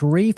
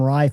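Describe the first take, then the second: First: The vowel sounds like 'ee'. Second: The vowel sounds like 'eye'. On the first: The speaker calls it right. "it's Reef spelled R E I F F" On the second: The speaker calls it wrong. "I always pronounce them Rife"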